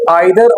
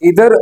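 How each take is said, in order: First: The first vowel sounds like 'eye'. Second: The first vowel sounds like 'ee'. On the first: The speaker calls it wrong. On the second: The speaker calls it right.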